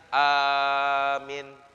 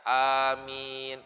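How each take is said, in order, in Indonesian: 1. Vokal pertama panjang, vokal kedua pendek. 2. Vokal pertama dan kedua sama-sama panjang. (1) "A-nya panjang, minnya pendek" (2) "A-nya panjang, mimnya panjang"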